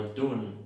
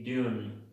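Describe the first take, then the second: First: "dune" said as doon, no y-glide; plain "oo" vowel in "dune"; own-accent dune. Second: "dune" said as dyoon; dune with y-glide. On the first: Teacher giving the word in own accent, "dune" as doon. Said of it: "dune en mi acento". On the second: Teacher showing the silent E's effect, "dune" as dyoon. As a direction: put a "you" sound inside "dune". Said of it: "o dune en mi acento". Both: Shown as a demonstration.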